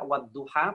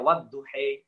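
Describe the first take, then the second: First: The final vowel is an open 'a' sound. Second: The final vowel is an 'e' sound. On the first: "ada yang membaca wadduha" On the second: "pernah kita dengar ya"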